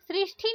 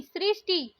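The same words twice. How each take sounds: First: सृष्टि with aspirated "thi"; breath puff on t of सृष्टि; wrong pronunciation. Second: सृष्टि with plain "ti"; no puff on t of सृष्टि; correct pronunciation. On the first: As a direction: say सृष्टि as "srishthi". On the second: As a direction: say सृष्टि as "srishti". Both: Shown as a demonstration. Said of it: "सृष्टि नहीं".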